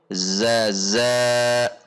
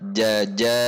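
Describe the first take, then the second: First: Both syllables begin with a z sound. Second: Both syllables begin with a j sound. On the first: "atau zaza" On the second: "jangan sampai dibaca jaja"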